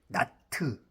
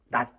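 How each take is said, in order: First: The final t is released as its own syllable. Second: The final t is clipped into one syllable. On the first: "T자 발음을 트르도 하기도 하고" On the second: "한 발음으로 할 때는 낫으로 할 수 있죠"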